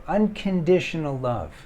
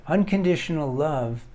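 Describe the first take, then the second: No difference in how they are said.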